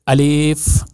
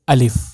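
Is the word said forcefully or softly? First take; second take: forcefully; softly. First: The word is said hard and forcefully. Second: The word is said softly and quickly. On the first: The speaker calls it wrong. "ऐसे नहीं करना" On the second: The speaker calls it right. "नरम आवाज़"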